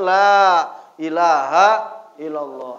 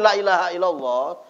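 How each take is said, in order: First: The first vowel is held for two beats. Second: The first vowel is cut to one beat. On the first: There is no god but Allah. The speaker calls it right. "itu panjangnya dua ketukan" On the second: Truly there is a god other than Allah. The speaker calls it wrong. "satu ketukan, ya, itu artinya berubah"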